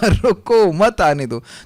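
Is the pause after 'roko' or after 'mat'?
after roko. The pause comes right after 'roko'.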